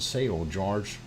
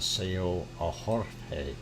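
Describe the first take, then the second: First: The name is said with English sounds. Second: The name is said with Spanish sounds.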